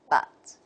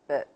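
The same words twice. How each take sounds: First: The vowel is full and clearly pronounced. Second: The vowel is reduced and weakly pronounced. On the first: "The strong form is but" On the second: "What about the weak form?"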